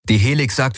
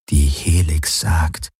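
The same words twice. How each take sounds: First: Said in the usual way. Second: Langsam, zweifelnd nachgesprochen, Betonung auf Helix; skeptisches Echo. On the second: A narrator's reading. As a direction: seine Worte ungläubig wiederholen. (sie wiederholt seine Worte zweifelnd und langsam)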